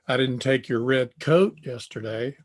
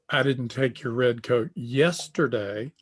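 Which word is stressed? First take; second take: coat; yesterday. First: The stress falls on the word coat. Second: The stress falls on the word yesterday. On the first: A different item was taken. "I took a sweatshirt" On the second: It was taken on another day. "I took your red coat, but it was last week"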